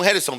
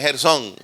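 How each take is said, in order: First: The stress is on the first syllable. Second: The stress is on the last syllable. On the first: It names a different person. "Por ahí hay un Gerson" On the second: It names the biblical son. "Tiene acento en la O"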